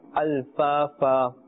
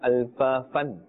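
First: The word ends on a long a vowel. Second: The word ends with an added n sound. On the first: The speaker calls it right. "That's how we will pronounce it" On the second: The speaker calls it wrong. "We are not saying alfafan"

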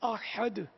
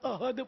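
First: The h sound is deep and throaty. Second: The h sound is light and plain. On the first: One. The speaker calls it right. "احد کی جگہ" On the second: Coward. The speaker calls it wrong. "احد پڑھتے ہیں، احد مانے بزدل ہے"

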